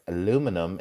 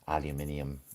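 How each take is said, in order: First: It is said with four syllables, American style. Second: It is said with five syllables, British style. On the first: "aluminum in American English" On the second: "and then I would say aluminium"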